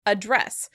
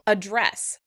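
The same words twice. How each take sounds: Both takes have the same delivery.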